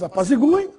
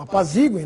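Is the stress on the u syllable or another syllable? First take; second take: u syllable; another syllable. First: The stress falls on the u syllable. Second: The stress falls on a syllable other than u. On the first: "fosse pronunciada em tônica" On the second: "no Brasil"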